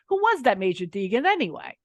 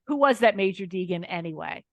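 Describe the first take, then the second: First: It is said in a strong New York accent. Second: It is said in the speaker's plain accent.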